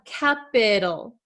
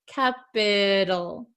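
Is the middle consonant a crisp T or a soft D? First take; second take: soft D; soft D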